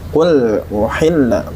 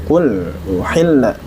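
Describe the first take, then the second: No difference in how they are said.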